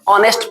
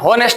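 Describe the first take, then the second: First: The word begins with a vowel sound. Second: The word begins with an h sound. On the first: The speaker calls it right. "ऑनेस्ट पढ़ा जाता है" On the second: The speaker calls it wrong. "होनेस्ट नहीं पढ़ा जाता है"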